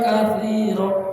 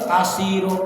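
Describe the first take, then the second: First: The middle consonant is a 'th' sound. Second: The middle consonant is a plain 's' sound. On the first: The speaker calls it right. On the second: The speaker calls it wrong.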